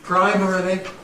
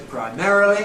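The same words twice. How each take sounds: First: The stress is on the first syllable. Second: The stress is on the second syllable. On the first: Older people say it this way. "Older people with initial stress" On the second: Younger people say it this way. "younger people with stress on the second syllable"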